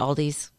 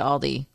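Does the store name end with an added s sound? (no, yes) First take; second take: yes; no. First: The name ends with an added s sound. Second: The name ends without an s sound. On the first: The speaker calls it wrong. "instead of" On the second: The speaker calls it right. "trying to say it correctly"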